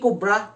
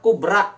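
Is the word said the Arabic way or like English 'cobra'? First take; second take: like cobra; Arabic. First: It sounds like the English word cobra. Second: It is said with Arabic sounds, unlike cobra. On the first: It names a snake. The speaker calls it wrong. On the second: It means big. The speaker calls it right.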